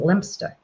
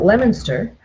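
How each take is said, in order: First: The name is shortened to two syllables. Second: The name is said with all its syllables. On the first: This is how people say it over there. "over there you pronounce it Lempster" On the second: This is how people say it here. "here we pronounce it Leominster"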